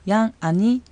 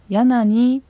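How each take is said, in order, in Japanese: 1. nは後ろの母音と分けて発音する。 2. nはすぐ後ろの母音につながる。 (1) "ゆっくり発音する際にはヤンアニと発音しても構いません" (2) "普通に話す速度で発音した場合はヤナニという形になります"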